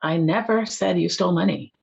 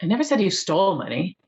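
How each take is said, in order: First: "never" punched, rest of the sentence falls; stress on NEVER. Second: "stole" stressed, ending on a rise. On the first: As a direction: lean hard on the word "never". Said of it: "[name], you emphasize "never". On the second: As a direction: lean on the word "stole". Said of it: "And then you say "stole". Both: Shown as a demonstration.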